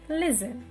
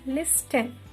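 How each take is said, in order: First: The T sound is left silent. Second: The T sound is pronounced. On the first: The speaker calls it right. "T is the silent letter. Listen" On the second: The speaker calls it wrong. "It is not listen"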